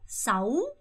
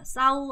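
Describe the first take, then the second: First: The pitch rises through the word. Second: The pitch stays level without rising. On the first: The speaker calls it right. "올리셔야 돼요" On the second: The speaker calls it wrong. "싸우 아니고"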